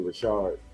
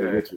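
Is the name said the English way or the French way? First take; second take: French way; English way. First: The name is said with a French-style pronunciation. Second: The name is said with a plain English pronunciation. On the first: This is how the fancier side of the family says it. "the bougie side, say Richard" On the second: This is how the other side of the family says it. "Other side, say Richard"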